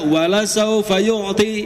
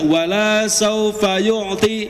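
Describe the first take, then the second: First: The vowel after the L is kept short. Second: The vowel after the L is held long. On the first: God will surely give. The speaker calls it right. "harusnya dibaca" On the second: God will not give. The speaker calls it wrong. "masih banyak Pak yang baca"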